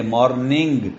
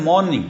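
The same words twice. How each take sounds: First: مارننگ ending in N plus hard G; MORNING with separate N, G. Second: مارننگ with the final G not sounded; MORNING with one NG sound. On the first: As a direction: say مارننگ as "mor-ning-g", G sounded. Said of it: "نون اور گاف کو ہم علیحدہ علیحدہ بولتے ہیں". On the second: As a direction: say مارننگ ending on a nasal "ng" alone. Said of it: "مگر کچھ کہتے ہیں". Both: Shown as a demonstration.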